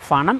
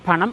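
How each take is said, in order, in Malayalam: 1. ഈ വാക്ക് f ശബ്ദത്തിലാണ് തുടങ്ങുന്നത്. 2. ഈ വാക്ക് ആസ്പിരേറ്റഡ് p ശബ്ദത്തിലാണ് തുടങ്ങുന്നത്. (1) "ഫണം അല്ല" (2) "പണം ആണ്"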